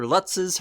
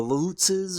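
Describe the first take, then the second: First: "Lutzes" with a short u, like "cuts"; alternative pronunciation. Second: "Lutzes" with a long oo, like "loots"; first pronunciation variant. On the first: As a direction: say "Lutzes" as LUTT-siz. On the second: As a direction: say "Lutzes" as LOOT-siz. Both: Shown as a demonstration. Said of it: "however you want to pronounce them".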